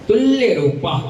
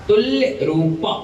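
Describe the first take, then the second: The two takes are said the same way.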